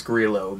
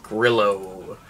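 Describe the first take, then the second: First: "Grillo" said as "GREE-lo"; proper name pronunciation. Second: "Grillo" said like "grill" plus "oh"; deliberately misread name. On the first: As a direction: say Grillo with a long ee. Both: Shown as a demonstration. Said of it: "I know it's Grillo, but".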